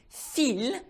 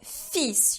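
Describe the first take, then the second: First: The final S is silent. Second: The final S is pronounced. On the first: A thread. The speaker calls it wrong. "if you don't do so, fil means a thread" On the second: A son. The speaker calls it right. "you do need to pronounce that final S"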